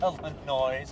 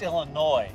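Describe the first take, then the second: First: The final S sound is pronounced. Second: The final S sound is left silent. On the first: The speaker calls it wrong. "It's not Illinois" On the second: The speaker calls it right. "there's an S... but it's silent"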